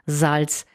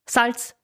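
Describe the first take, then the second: First: The first s is buzzed and voiced. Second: The first s is hissed and voiceless. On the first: "dieses stimmhafte S ... meine Beispiele von vorhin waren Salz" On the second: "dieses stimmhafte S ganz normal aussprechen"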